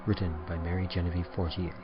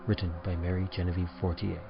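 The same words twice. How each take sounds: The two takes are said the same way.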